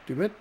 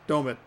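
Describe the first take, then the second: First: The first syllable sounds like 'doo'. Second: The first syllable sounds like 'doe'. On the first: "Dumit would be D U" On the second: "the D O would be Doe"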